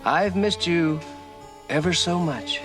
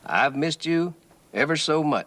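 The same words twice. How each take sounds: First: The voice is softer than normal. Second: The voice is at normal loudness and pitch.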